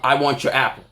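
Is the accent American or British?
American. It is said in a plain American accent. It sounds harmless. "I can say"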